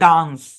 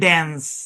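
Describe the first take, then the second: First: It uses a broad 'ah' vowel. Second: It uses a flat 'a' vowel. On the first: "ব্রিটিশরা বলে" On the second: "আমেরিকানরা বলে"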